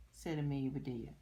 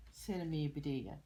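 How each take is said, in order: Both takes have the same delivery.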